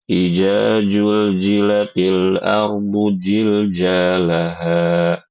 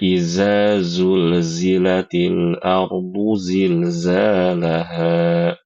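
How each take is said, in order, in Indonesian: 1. Setiap zal dan zai dibaca sebagai j. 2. Setiap zal dan zai dibaca sebagai z. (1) "mengubah seluruh huruf-huruf zal dan zai dengan huruf jim" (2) "Semuanya dibaca dengan huruf zai"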